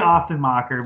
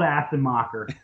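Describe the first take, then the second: First: The S sound is said softer and gentler. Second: The S sound is said hard and sharp.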